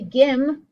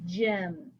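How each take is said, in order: First: It starts with a hard G sound. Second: It starts with a soft J sound. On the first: The speaker calls it wrong. "I don't say gim" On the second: The speaker calls it right. "I say gem"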